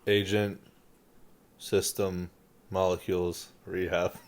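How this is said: It is spoken in a full voice. "now tell me in a full voice what you said"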